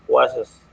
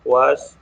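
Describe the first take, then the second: First: "was" said with an extra "-is" syllable on the end; extra final syllable. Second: Said in the usual way. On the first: Shown as a demonstration. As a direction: stretch "was" into two syllables, ending in "-is". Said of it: "extra syllable with is". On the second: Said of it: "extra syllable with".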